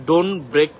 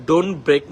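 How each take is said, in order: No difference in how they are said.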